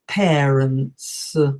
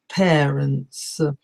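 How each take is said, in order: No difference in how they are said.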